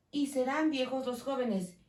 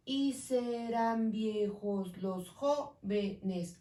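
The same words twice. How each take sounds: First: Said in the usual way. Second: Slow, syllables spaced; slow syllable count. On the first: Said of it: "Continúo separando". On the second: Shown as a demonstration. Teacher counting syllables slowly for students. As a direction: count "Y serán viejos los jóvenes" syllable by syllable. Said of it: "Aquí tengo nueve".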